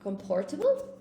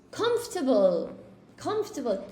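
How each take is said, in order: First: Questioning "Comportable", a clear POR in the middle; "Comportable" with p for f, rising at the end; mispronounced comfortable. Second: "Comfortable" squeezed to three syllables, falling; correct pronunciation demo. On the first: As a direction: say "Comportable" as com-POR-ta-ble, with a p. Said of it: "I don't think comportable is an English word". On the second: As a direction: say "Comfortable" as CUMF-ta-ble. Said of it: "I say comfortable". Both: Shown as a demonstration.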